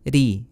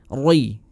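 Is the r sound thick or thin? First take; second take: thin; thick. First: The r sound is thin and light. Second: The r sound is thick and heavy. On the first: The speaker calls it right. "harus ditipiskan" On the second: The speaker calls it wrong. "Jadi bukan roi roi"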